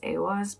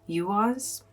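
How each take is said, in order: First: It begins without a 'you' sound. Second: It begins with a 'you' sound. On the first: "I always pronounce this" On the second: "like you, the yew tree"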